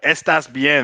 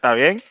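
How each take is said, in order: First: The opening 'es' sound is clearly pronounced. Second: The opening 'es' sound is dropped and run together. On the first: It sounds like a beginner. The speaker calls it wrong. "That's like beginner level Spanish" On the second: It sounds like a fluent speaker. The speaker calls it right. "take off the es, put the ta, and just mash the bien"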